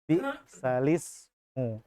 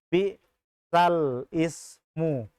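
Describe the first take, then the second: First: The l runs straight into ismu. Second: A break comes before ismu. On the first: The speaker calls it right. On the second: The speaker calls it wrong.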